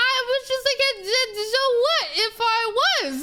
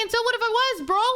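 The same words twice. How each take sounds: First: High-pitched, stumbling through laughter; breaking up with amused disbelief; laughing comeback. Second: High, incredulous retort without the laughing; challenging comeback. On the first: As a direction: struggle to get it out while laughing. Laughing while retelling her comeback. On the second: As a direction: throw it back at him, composed. Repeats the comeback after the laugh. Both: Retold or imitated.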